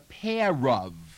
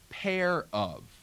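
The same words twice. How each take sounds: First: The r is sounded and glides into the next word. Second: The r is pronounced in a General American way. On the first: "If they're close together" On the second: "in American"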